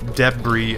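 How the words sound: It is said in a British accent.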